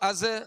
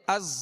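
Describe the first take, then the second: First: The final z sound is soft and plain. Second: The final z sound is hard and whistling. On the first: The speaker calls it wrong. "ऐसे नहीं पढ़ना" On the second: The speaker calls it right. "बल्कि"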